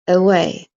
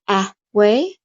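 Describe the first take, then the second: First: The first vowel is a short uh. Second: The first vowel is a full vowel. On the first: The speaker calls it right. "we just say it with the short clipped schwa sound" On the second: The speaker calls it wrong. "Do we go a way or a way? No, we don't"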